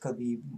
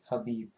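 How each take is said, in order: First: The name begins with a hard K sound. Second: The name begins with an H sound. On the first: The speaker calls it wrong. "it says Khabib" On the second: The speaker calls it right. "you pronounce it with without the K"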